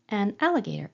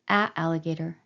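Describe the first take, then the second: First: An n sound links the two vowels. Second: Two vowels meet with no consonant between. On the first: The speaker calls it right. "that just seems easier to say" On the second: The speaker calls it wrong. "something doesn't seem right there"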